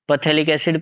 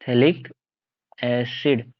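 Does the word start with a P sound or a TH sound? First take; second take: P sound; TH sound. First: The word begins with a P sound. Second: The word begins without a P sound. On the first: The speaker calls it wrong. "Pronounce मत करना" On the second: The speaker calls it right. "वो पी silent है"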